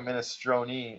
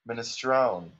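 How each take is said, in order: First: It is said with an American pronunciation. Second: It is said with a strong Italian-American accent. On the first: This is how it is said in America. "And then America, minestrone" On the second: This is how it is said in Little Italy. "And in little Italy, minestrone. Strong"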